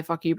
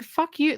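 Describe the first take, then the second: First: Said in the usual way. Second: High-pitched mock outburst; retold curse, pitched well up; fed-up retort. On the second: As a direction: throw it out as an exasperated, acted comeback. Acting out Dottie's fed-up retort.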